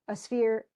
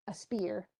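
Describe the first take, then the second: First: "sphere" with an f sound after the s; mispronounced spear. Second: Said in the usual way. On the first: Real, not acted. Lecturer stumbling over the warrior's weapon, tongue slip on "sphere". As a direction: say "sphere", slipping an f in for the p.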